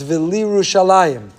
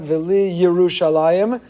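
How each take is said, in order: First: No short vowel is sounded with the y. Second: A short vowel is sounded with the y. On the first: The speaker calls it right. "there is no shva under the yud" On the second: The speaker calls it wrong. "It's not"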